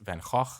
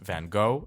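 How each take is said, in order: First: Van Gogh is said with a Dutch pronunciation. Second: Van Gogh is said with an English pronunciation. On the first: The speaker calls it right. "it's pronounced Van Gogh" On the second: The speaker calls it wrong. "it's not pr- pronounced Van Gogh"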